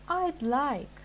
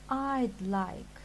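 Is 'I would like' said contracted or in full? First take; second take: contracted; contracted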